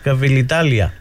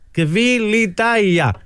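First: An L sound comes before the final syllable. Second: No L sound comes before the final syllable. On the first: The speaker calls it wrong. "Το είπε τρεις-τέσσερις φορές" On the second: The speaker calls it right. "Είναι Κβιλιτάια"

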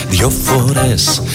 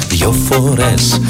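No difference in how they are said.

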